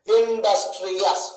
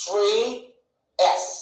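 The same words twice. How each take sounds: First: Said in the usual way. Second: "ఇండస్ట్రియస్" slowly as in, dus, tri, ous; four separate beats for "ఇండస్ట్రియస్", a pause after each; split into syllables. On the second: Shown as a demonstration. Teacher counting four syllables, "ఇండస్ట్రియస్" broken up slowly. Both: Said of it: "మొత్తం ఎన్నైనా ఇక్కడ".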